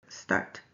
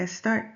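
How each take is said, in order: First: Said in the usual way. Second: "start" with an extra e before it, es-start; added prefix. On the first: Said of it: "instead of start". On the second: Shown as a demonstration. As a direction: say "start" as "estart". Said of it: "he uses start instead of start".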